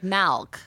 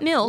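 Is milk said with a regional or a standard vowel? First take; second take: regional; standard. First: Milk is said with an unusual regional vowel. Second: Milk is said with the ordinary standard vowel. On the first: This is how the family at home says it. "Babies in my house drink milk" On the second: This is how it is usually said elsewhere. "Not milk"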